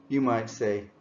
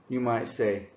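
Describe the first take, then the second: No difference in how they are said.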